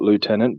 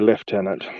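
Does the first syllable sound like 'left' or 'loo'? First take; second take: loo; left. First: The first syllable sounds like 'loo'. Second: The first syllable sounds like 'left'. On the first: "I understand why you want to call it lieutenant" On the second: "So we go lieutenant"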